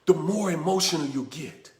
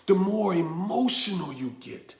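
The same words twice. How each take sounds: The two takes are said the same way.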